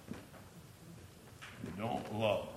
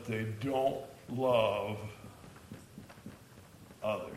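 First: "They don't love" dropped very soft and very slow; slow, soft repeat of "They don't love" to drive it home; quiet emphasis. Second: Said in the usual way. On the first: Shown as a demonstration. Teacher repeats point for emphasis.

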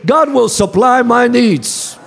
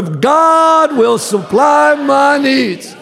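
First: Said in the usual way. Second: Slow, shouted declaration; louder. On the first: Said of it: "Come on, say it with me". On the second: Shown as a demonstration. Preacher leading the church, calling them to say it louder. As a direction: belt it out to the congregation. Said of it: "Say it louder".

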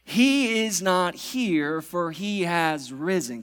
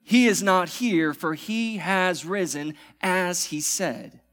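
First: Slow, weighty scripture reading; solemn proclamation. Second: Bold proclamation. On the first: Pastor proclaiming the resurrection to church, slow and weighty. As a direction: let each word land slowly. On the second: Pastor declaring it again after calling for amen, bold. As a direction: proclaim it with full force. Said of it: "Can someone say amen this morning". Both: Acted.

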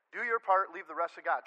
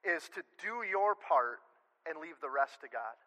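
First: Louder punch on "your"; stressed "your part", plain "God"; emphatic repeat. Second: Slow, stressing "your"; measured stress on "your" and "rest"; slow emphasis. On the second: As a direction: lean into "your part" slowly. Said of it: "The last thing". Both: Real, not acted.

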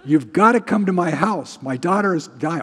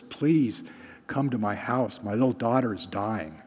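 First: Louder, higher, pressing plea; urgent demand. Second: Understated, softly spoken plea; synagogue official's plea. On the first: Official begging for help in the preacher's version, loud urgency. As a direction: push hard for help right now. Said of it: "this thing would have happened". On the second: Official begging Jesus to come to his house, understated plea. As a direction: plead gently, trailing lower. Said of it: "synagogue official comes to Jesus". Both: Retold or imitated.

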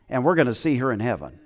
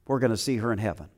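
First: Said in the usual way. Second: Repeated much softer and quick. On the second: Real, not acted. Pastor repeats to the church that they'll see her, softly. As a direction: echo it quietly to yourself.

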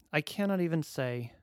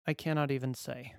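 No difference in how they are said.

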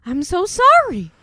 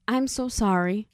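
First: Loud, high, slow mock apology; overeager apology. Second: Imitated earnest apology, understated; real serious. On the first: Lithgow character repeating his apology for the thrill, hammed-up. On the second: Lithgow character apologizing as he takes her hand, seriously. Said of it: "he's all, like, real serious now".

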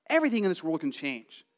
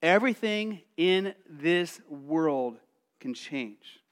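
First: Said in the usual way. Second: Slowed, each word weighed; slow solemn emphasis; slow, weighty. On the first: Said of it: "repeated phrase, plain take". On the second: Shown as a demonstration. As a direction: let it sink in slowly. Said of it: "repeated phrase, slow take".

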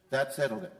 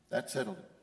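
First: Said in the usual way. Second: Much softer, lower repeat; quietly echoing the refrain. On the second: Acted. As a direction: let it fall to a hush. Refrain repeated, dropping away.

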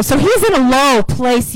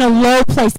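First: Said in the usual way. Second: Low said with the weight, falling after it; stress on low. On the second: Shown as a demonstration. Preacher corrects himself to put the stress on low. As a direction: lean on the word low, not on in. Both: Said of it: "A, I mean".

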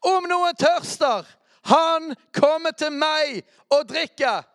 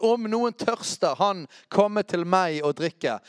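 First: Slow, high, full-voiced proclamation; shouting Jesus' call from the temple feast; Jesus crying out. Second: Raised, slow call that settles down; a lighter retelling of Jesus' cry; milder cry. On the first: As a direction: cry it out to the crowd. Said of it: "sto Jesus og ropte ut". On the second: Acted. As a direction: lift the first words, then ease off. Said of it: "Jesus sto og ropte ut".

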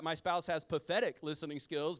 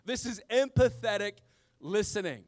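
First: "pathetic" said in an ordinary even voice; plain "pathetic" as a mock complaint; pathetic said plainly. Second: "empathetic" punched much louder, with the EM- hit hard; stress on EMPATHETIC. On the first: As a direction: say "pathetic" plainly with no extra weight on it. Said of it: "but no, no, this is, this is empathetic". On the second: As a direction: hit "empathetic" loud to correct the word "pathetic". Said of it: "but no, no, this is". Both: Shown as a demonstration.

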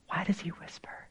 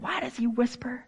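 First: Very soft, breath-only question; whisper. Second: Soft but higher-pitched question; hushed question. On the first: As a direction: drop into a real whisper. Preacher demonstrates God's whisper. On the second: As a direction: ask it softly, pitch lifted. Preacher builds toward a whisper. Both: Shown as a demonstration.

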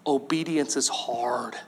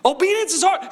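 First: Soft, low, slow: "Obedience is hard"; understated honest confession; quiet admission. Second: "Obedience" pushed high and punchy; emphatic restatement. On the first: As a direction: confess it gently and slowly. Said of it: "Let's just be honest". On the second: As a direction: hit "Obedience" hard and bright. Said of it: "Isn't it?". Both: Real, not acted.

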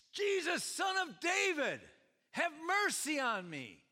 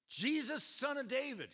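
First: High, loud cry of a beggar; desperate yell. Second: Yelling. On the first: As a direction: cry out for mercy at full voice. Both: Acted. Retelling the beggar's yelling.

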